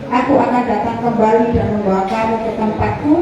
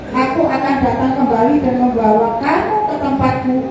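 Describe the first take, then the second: Both takes have the same delivery.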